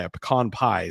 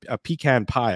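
First: "pecan" said as puh-KAHN; "pecan" with a weak first syllable and an open "kahn"; puh-KAHN pronunciation. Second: "pecan" said as PEE-can; "pecan" with a long ee and "can" as in tin can; PEE-can pronunciation. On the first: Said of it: "So pecan pie is". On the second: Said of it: "I used to say pecan". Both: Real, not acted.

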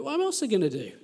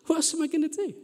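First: Said in the usual way. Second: Same question pitched much higher, pleading; rising despair. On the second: Retold or imitated. Vicar repeating his question to the congregation, higher and pleading. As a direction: throw it up high like a helpless plea.

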